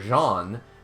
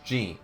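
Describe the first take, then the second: First: The name is said with a French pronunciation. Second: The name is said with an English pronunciation. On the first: "because they're obviously French" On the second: "it's Jean to us in in in uh, American English and and British English"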